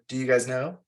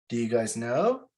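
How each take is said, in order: First: The voice falls at the end like a statement. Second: The voice rises at the end like a question. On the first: It is said as a statement. "as a statement" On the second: It is asked as a question. "like when we're asking a question"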